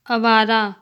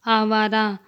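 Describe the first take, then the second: First: Short first vowel in "आवारा", like "अवारा"; incorrect pronunciation. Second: Long opening aa in "आवारा"; correct pronunciation. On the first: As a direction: say "आवारा" wrongly with a brief opening a. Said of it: "अशुद्ध शब्द". ("आवारा" का अशुद्ध उच्चारण, शुरू में छोटा अ) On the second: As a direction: say "आवारा" with the first vowel held long. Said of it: "शुद्ध शब्द". ("आवारा" का शुद्ध उच्चारण, शुरू में लंबा आ) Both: Shown as a demonstration.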